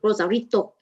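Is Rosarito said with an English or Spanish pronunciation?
Spanish. It is said with a Spanish-style pronunciation. The speaker calls it right.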